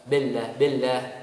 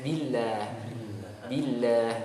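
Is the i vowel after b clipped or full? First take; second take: clipped; full. First: The i vowel after b is not fully sounded. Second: The i vowel after b is fully sounded. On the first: The speaker calls it wrong. "tidak sempurna mengucapkan kasroh ba" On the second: The speaker calls it right.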